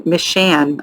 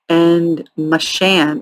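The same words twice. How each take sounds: First: "Mishan" retried as "MIH-shan", clear short i; second try at the name. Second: "Mishan" tried as "muh-SHAN", weak first syllable; unsure pronunciation. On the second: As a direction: test "Mishan" with a reduced first vowel. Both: Shown as a demonstration. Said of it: "I don't know if I'm saying that correctly".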